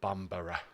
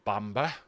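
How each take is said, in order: First: The name is said with three syllables. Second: The name is said with two syllables.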